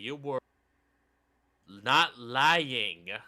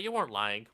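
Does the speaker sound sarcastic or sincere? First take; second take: sarcastic; sincere. First: It is said in a sarcastic, mocking tone. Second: It is said in a plain, sincere tone. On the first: The speaker means the opposite of the words. "It's when you don't really mean what you're fucking saying" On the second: The speaker means the words literally. "No air quotes"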